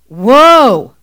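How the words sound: It is said forcefully and upset.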